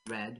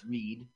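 First: The vowel is short, like 'red'. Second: The vowel is long, like 'reed'. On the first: This is how the bearer says the name. The speaker calls it right. "he pronounces it Red" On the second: This is how the name is spelled. The speaker calls it wrong. "You see it says Reed Rudy"

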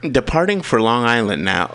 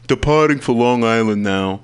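First: It is read in the speaker's natural voice. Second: It is read in a silly put-on voice.

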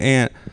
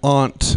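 First: It is pronounced in an ordinary way. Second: It is pronounced in a fancy-sounding way. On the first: The speaker calls it right. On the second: The speaker calls it wrong.

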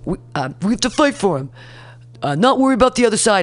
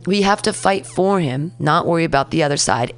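First: It is said in an imitated put-on voice. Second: It is said in the speaker's natural voice. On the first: "let me not do his voice" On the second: "let me not do his voice"

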